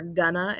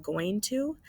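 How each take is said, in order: First: "gonna" run together as one casual word. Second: Said in the usual way. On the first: Shown as a demonstration. Teacher shows students spoken spelling, "gonna" slurred into one word. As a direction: reduce going to into "gonna". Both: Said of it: "instead of".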